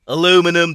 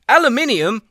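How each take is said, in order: First: The word is said with four syllables. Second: The word is said with five syllables. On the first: The speaker calls it wrong. "we should probably drop a letter there" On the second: The speaker calls it right. "You guys decided that aluminium was too fucking hard to say"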